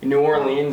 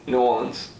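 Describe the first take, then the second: First: Every syllable of the name is said carefully. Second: The name is squeezed into fewer, shorter syllables. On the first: It is more than the locals say. "kind of overpronouncing it" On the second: It is less than the usual form. "some people underpronounce it"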